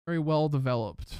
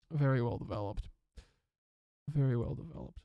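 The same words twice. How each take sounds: First: Said in the usual way. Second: Lower, softer, mock-impressed voice; a touch of mock-British praise; mock-posh aside. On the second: Shown as a demonstration.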